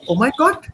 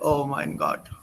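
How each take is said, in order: First: It is said as a question, pitch rising. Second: It is said flatly, with no interest. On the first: The speaker is asking. "with the question mark with the tone going up" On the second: The speaker does not care. "I can read it in a very disinterested way"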